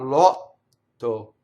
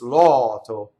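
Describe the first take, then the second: First: The T is held long and doubled. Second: The T is short and single. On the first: The speaker calls it wrong. "It's not lotto" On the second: The speaker calls it right. "It's loto"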